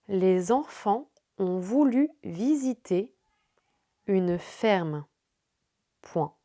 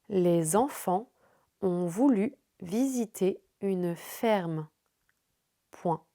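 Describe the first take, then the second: Both takes have the same delivery.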